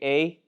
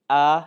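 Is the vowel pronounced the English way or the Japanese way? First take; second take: English; Japanese. First: The vowel is said as an English letter name. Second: The vowel is said as a Japanese vowel. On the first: "in English, we would say" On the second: "but they pronounce it"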